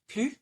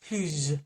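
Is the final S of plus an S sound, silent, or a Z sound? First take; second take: silent; Z sound. First: The word ends with no consonant sound. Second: The word ends with a buzzing Z sound. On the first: "without an S" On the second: "as a Z sound"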